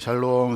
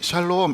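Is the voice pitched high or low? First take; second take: low; high. First: It is said in a low, gloomy voice. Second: It is said in a high, bright voice. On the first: The speaker seems to be unwell today. "제 목소리가 좀 저음이고 좀 이렇게 원래 좀 약간 우울하잖아요" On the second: The speaker seems to be healthy today. "톤이 샬롬 이렇게 높으면"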